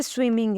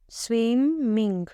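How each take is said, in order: First: Said in the usual way. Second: स्विमिंग drawn out slowly in two beats, स्विम-मिंग; split into syllables. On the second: Shown as a demonstration. Teacher counting syllables for students, स्विमिंग slowly split in two. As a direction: stretch each half of स्विमिंग separately. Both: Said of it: "दो बार आ रहा है ना".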